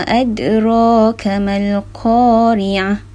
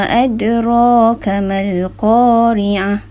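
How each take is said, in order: The two takes are said the same way.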